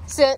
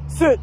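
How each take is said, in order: First: It is said in her normal pitch. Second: It is said in a lower, deeper pitch.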